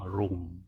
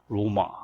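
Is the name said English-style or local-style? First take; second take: English; local. First: It is said the English way, as one syllable. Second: It is said the local way, with two syllables. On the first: "영어식으로 말하면 로움입니다" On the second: "현지식으로 하면 로마"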